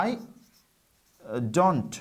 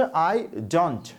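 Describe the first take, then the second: First: I and don't split by a long pause; spaced-out pronunciation demo of don't; careful pronunciation. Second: I don't run together as one smooth phrase; teacher models how I don't is pronounced; pronunciation model. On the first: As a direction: say I, pause, then don't with a clear t. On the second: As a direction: say I don't linked, with a clear t at the end. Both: Shown as a demonstration. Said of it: "উচ্চারণটা হচ্ছে".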